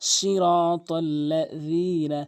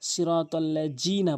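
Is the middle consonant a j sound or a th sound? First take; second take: th sound; j sound. First: The middle consonant is made with tongue tip at teeth. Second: The middle consonant sounds like j. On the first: The speaker calls it right. "জিব্বার আগা দাঁতের আগা" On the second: The speaker calls it wrong. "দালের জায়গায় জিম এনে উচ্চারণ করে"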